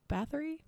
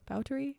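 First: "Bathory" read English-style, with a th; English pronunciation. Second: "Báthory" with a t, no th; Hungarian-style pronunciation. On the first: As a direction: say "Bathory" as BATH-uh-ree, questioning. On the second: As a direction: say "Báthory" as BOW-tuh-ree, questioning. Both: Shown as a demonstration. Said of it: "heard it pronounced both ways".

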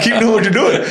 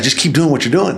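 First: Quoted much higher through a laugh; laughing mock boss. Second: Said in the usual way. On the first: Retelling boss's praise to host, laughing high. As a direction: squeal it out laughing in disbelief.

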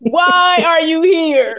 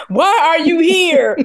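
First: Higher, very drawn-out shout; mock shout dragged out slowly; slower mock yell. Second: Pitched-up drawn-out mock shout; hammed-up shout at the lord; mock yell. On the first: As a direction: stretch the yell out even more. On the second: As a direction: yell it like a scared kid. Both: Mock kid yelling at lord.

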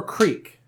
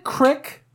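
First: "creek" with a long ee, as in seek; creek pronunciation. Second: "crick" with a short i, as in brick; crick pronunciation. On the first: Asking listeners which word is correct, long-vowel "creek". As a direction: say "creek" to rhyme with week. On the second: Asking listeners which word is correct, short-vowel "crick". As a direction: say "crick" to rhyme with stick. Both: Shown as a demonstration. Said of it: "is it crick or creek".

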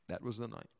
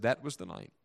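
First: Very soft, reflective echo; softly repeated for weight; hushed repeat. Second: Said in the usual way. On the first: Acted. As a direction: let it drop almost to nothing. Testimony line repeated, hushed.

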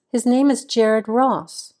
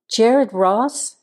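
First: Said in the usual way. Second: Questioning rise on the name; brightening surprise. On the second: A narrator's reading. Sheriff recognizing an old colleague's name, brightening in surprise. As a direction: repeat it as a pleasantly surprised question. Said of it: "the tone of his voice changing, his face brightening".

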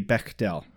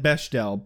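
First: "Bechdel" said BECK-del, with a hard k; hard k in the middle of "Bechdel"; corrected pronunciation. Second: "Bechdel" said BESH-del, with a sh sound; former pronunciation. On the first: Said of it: "I believe it to be Bechdel". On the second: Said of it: "we said Bechdel". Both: Shown as a demonstration.

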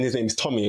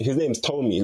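First: Tommy with a short o, TOM-ee; British pronunciation. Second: Tomi with a long o, TOH-mee; mum's pronunciation. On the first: Recalling the friend's name at school, Tommy said the British way. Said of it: "his British way of saying it". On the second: Explaining a Nigerian friend's real name, Tomi said with a long o. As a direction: say Tomi as "toe-me". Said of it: "his mum pronounces it Tomi". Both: Shown as a demonstration.

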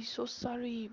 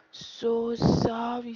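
First: Said in the usual way. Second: A hammed-up, sing-song "So sorry"; drawn-out mock apology. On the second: Vlogger mock-apologising to listeners who lack Patois, loud and stretched. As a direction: stretch "So sorry" slowly, much louder and higher.

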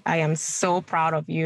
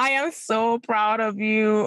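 First: Said in the usual way. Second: Higher and slow, voice full of emotion; heartfelt, emotional slow praise; tearful pride. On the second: Real, not acted. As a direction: say it as if holding back tears. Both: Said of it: "You're making me wanna cry".

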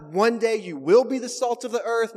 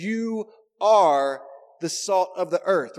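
First: "will" punched in a higher, louder voice; stress on WILL. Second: YOU and ARE each punched loud and drawn out; emphatic YOU ARE. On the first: Shown as a demonstration. Preacher ruling out a misreading, stressing WILL. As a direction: raise the pitch and hit "will" as the mistaken version. Contrasts wrong readings with "are. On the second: Retold or imitated. Preacher quoting Jesus to the congregation, stressing YOU ARE. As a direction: lean hard on "You are", then a beat before the rest. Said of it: "speaking emphatically to us".

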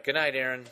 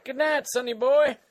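First: Said in the usual way. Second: Put-on high, loud old-timer goodnight; cranky old man voice; Old Man Dan. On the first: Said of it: "All right". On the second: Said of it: "Old Man Dan".

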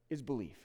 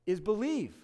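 First: Soft close. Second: Said in the usual way. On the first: Shown as a demonstration.

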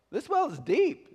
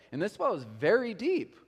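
First: High, slow southern drawl; sugary southern accent, pitched way up; sweet southern accent. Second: Said in the usual way. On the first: Acted. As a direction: draw it out like a sweet southern lady. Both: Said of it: "She's responding in her southern accent".

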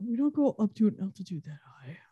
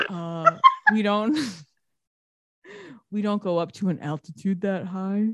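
First: Fast, softer, smug know-it-all line; a husband lecturing his wife, quick and snide; smug condescension. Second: Smug dick tone. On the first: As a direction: tosses off the correction like she's an idiot. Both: Retold or imitated. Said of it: "he said it in such a dick way".

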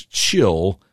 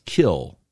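First: "chill" with a clear CH at the start; first syllable CHILL. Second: "kill" with a hard K at the start; contrasting KILL. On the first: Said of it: "the first syllable of children". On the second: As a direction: stress "kill" with a K instead of CH. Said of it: "not kill". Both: Shown as a demonstration.

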